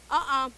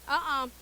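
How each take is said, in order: Both takes have the same delivery.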